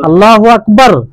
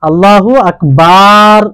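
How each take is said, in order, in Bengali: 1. কোনো স্বরধ্বনি টানা হয় না। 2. স্বরধ্বনিটি অনেক বেশি টানা হয়। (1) "কোনো টান নেই" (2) "টানটুনের পার্থক্য করে না"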